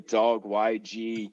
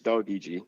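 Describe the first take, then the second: First: The Y is spoken as the letter 'why'. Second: The Y is spoken as 'ee' in 'doggy'. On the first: The speaker calls it wrong. "Most people say dog Y G or something like that" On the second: The speaker calls it right. "but it's doggy G"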